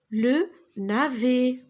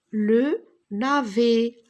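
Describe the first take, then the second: First: Le navet slowly, pitch up; slow syllable by syllable. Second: Le navet spoken slowly and louder; slow syllable by syllable. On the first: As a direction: articulate le navet again carefully. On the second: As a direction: spell out le navet for the class. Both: Shown as a demonstration. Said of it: "model sentence". (le navet articulé lentement)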